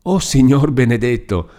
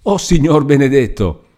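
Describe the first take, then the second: First: Higher-pitched awe, less forceful; stunned prayer of disbelief; trembling exclamation. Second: High-pitched exclamation of disbelief; startled gasp of a prayer, voice raised; astonished cry. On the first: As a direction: overcome by shock, murmur a thanksgiving. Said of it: "replicò ancor più tremante Lucia". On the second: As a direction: cry out at an unbelievable sight. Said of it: "guarda più attenta e grida". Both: A narrator's reading.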